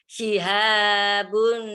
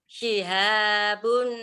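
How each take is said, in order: No difference in how they are said.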